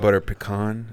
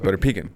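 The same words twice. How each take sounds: First: It is pronounced in a fancy, posh-sounding way. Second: It is pronounced in a plain, casual way.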